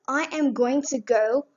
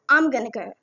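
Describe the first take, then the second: First: Every word is said fully and separately. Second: The words are reduced and run together. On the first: "instead of saying" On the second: "we can just say"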